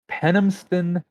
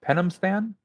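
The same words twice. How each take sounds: First: Said in the usual way. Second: Penamstan? asked with a high rising pitch; questioning Penamstan, pitch sweeping up; puzzled question. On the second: Real, not acted. Puzzled echo of the name.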